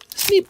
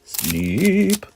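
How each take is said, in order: First: It is said in his normal voice. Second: It is said in a deeper voice.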